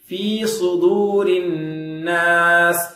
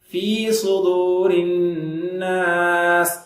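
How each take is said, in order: No difference in how they are said.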